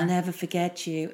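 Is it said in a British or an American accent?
American. It is said in an American accent.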